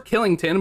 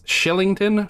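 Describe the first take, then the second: First: The name begins with a hard K sound. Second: The name begins with a soft SH sound. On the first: The speaker calls it wrong. "but it's not pronounced Killington" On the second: The speaker calls it right. "I believe it's Shillington"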